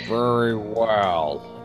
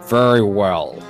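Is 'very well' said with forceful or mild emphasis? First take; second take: mild; forceful. First: It is said with mild, light emphasis. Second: It is said with strong, forceful emphasis. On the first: The speaker calls it wrong. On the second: The speaker calls it right.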